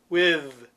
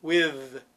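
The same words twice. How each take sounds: First: "with" with a buzzing voiced th; "with" ending in a voiced, buzzing th. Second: Said in the usual way. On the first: Shown as a demonstration. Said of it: "it's different than with". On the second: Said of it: "it's not voiced".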